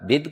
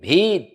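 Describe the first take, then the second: First: The vowel i is said short. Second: The vowel i is said long. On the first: The speaker calls it right. "हरस स्वीकार" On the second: The speaker calls it wrong. "आप भिद को भीद बोलते हैं"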